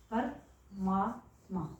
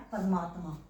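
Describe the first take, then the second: First: परमात्मा stretched out very slowly, syllable by syllable; slow, drawn-out परमात्मा. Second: Said in the usual way. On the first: Shown as a demonstration. Teacher to students showing the joined word, spelling परमात्मा out slowly. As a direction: draw out परमात्मा slowly so students hear each part. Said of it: "अब आपको इसको ध्यान से देखना है". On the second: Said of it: "तो यहाँ पे क्या बन गया".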